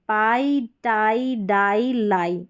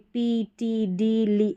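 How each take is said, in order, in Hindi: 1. हर शब्द 'eye' स्वर पर खत्म होता है। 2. हर शब्द 'ee' स्वर पर खत्म होता है। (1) "इस तरीके से आपको प्रोनाउंस करना है" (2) "ऐसे नहीं"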